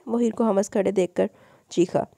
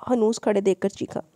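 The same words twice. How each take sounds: First: हमस misread where हनूस is meant; misread word. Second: हनूस read correctly, stressed; corrected word. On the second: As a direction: fix the slip by saying हनूस clearly. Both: Real, not acted.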